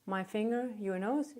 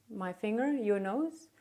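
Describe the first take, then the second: No difference in how they are said.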